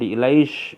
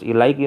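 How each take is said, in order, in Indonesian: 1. Kata ini berakhir dengan bunyi 'sh'. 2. Kata ini berakhir dengan bunyi 'ki'.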